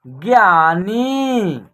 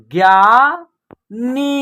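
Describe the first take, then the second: First: ज्ञानी joined slowly as one word, falling at the end; blended syllables. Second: ज्ञानी split into ज्ञा and नी, slow, first part rising; separate syllables. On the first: Teacher putting the word together for learners, ज्ञानी slowly blended. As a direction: say ज्ञानी unbroken with long vowels. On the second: Teacher sounding out a word for learners, ज्ञानी syllable by syllable. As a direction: break ज्ञानी after ज्ञा, holding both parts. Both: Shown as a demonstration. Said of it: "तो एक साथ उच्चारण करेंगे".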